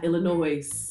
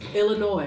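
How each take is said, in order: First: The name is said the non-local way. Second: The name is said the local way. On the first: The speaker calls it wrong. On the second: The speaker calls it right.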